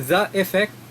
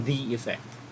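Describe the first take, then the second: First: The word 'the' has a short 'uh' vowel. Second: The word 'the' has a long 'ee' vowel. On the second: "It should be the effect. Or T H E E ang pronunciation niya"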